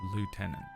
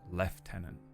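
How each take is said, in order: First: It is pronounced the way it is spelled. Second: It is pronounced unlike the way it is spelled. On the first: This is what the letters say. "It says the word lieutenant" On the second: This is how people actually say it. "but we say lieutenant"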